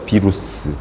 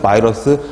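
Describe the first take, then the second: First: The word starts with a short 'bi' sound. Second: The word starts with a 'bai' sound. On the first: This is the older way of reading it. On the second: This is the current way of reading it.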